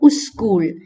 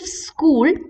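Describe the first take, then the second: First: A u vowel is added before the s. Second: The word starts directly with the s sound. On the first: "or uskul" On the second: "instead of school"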